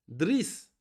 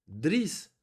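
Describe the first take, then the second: No difference in how they are said.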